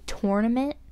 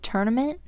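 First: The first syllable sounds like the word 'tour'. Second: The first syllable sounds like the word 'turn'. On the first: "think of the word tour. You say tour, like tournament" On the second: "people say tournament"

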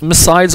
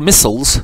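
First: The word is said with a British pronunciation. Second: The word is said with an American pronunciation. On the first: "British or American" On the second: "British or American"

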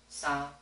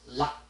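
First: The syllable is held long. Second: The syllable is cut short. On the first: "They sound similar" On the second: "but this one, it sounds shorter"

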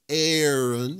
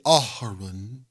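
First: The vowels blend smoothly into one sound. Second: The vowels are split apart by a break. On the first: The speaker calls it right. "two A's, Aaron, it's smooth" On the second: The speaker calls it wrong. "you wouldn't say Aharon"

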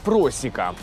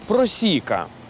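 First: The stress is not on the second syllable. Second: The stress is on the second syllable. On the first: The speaker calls it wrong. "І ні в якому разі не просіка" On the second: The speaker calls it right. "Називається вона просіка"

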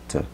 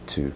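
First: The word has a short, reduced vowel. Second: The word has a full, long oo vowel. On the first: "Muchas veces lo acortamos" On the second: "Este to si se pronuncia U"

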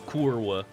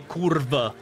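First: The consonant before the final vowel is a W. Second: The consonant before the final vowel is a V. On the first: This is how people claim it is said. "you pretend it's kurwa" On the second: This is how people actually say it. "You all say kurva"

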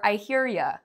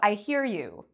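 First: The last word is said as a reduced 'ya'. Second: The last word is said as a full 'you'. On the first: "You might even say it in a slang way"

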